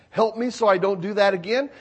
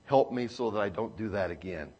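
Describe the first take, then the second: First: Said in the usual way. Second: Soft prayer. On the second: Acted. Quiet prayer said softly.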